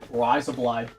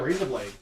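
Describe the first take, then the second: First: It is said in a put-on Australian accent. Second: It is said in the speaker's ordinary accent.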